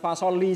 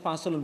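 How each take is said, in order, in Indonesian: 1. Kata ini berakhir dengan vokal i. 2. Kata ini berakhir dengan bunyi un. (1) "bukan fasoli juga" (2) "bacanya faslun"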